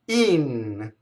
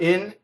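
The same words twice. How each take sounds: First: The vowel is a tense 'ee' sound. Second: The vowel is a short lax 'ih' sound. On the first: The speaker calls it right. "I is always E" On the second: The speaker calls it wrong. "It's not in"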